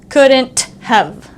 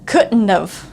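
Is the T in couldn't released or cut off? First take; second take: released; cut off. First: The T in couldn't is fully released. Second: The T in couldn't just stops short. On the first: The speaker calls it wrong. "It's not couldn't have" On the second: The speaker calls it right. "this T kind of just stops"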